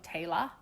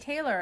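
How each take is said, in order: First: The name is said in an Australian accent. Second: The name is said in an American accent.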